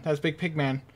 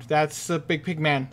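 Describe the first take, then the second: First: "Big Pig Man" stressed on "Big", falling, said like a proper name; name him: "Big Pig Man", punch "Big". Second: Said in the usual way. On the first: Shown as a demonstration. Player correcting himself to the monster's name, stress on Big.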